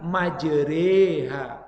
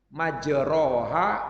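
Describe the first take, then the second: First: The vowel after 'majr' leans toward 'e'. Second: The vowel after 'majr' is an open 'a'.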